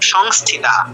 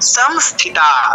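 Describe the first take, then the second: First: The s is a hushing sh sound. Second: The s is a hissing dental s sound. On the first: The speaker calls it wrong. "Not" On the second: The speaker calls it right. "स आबार दन्तस्व"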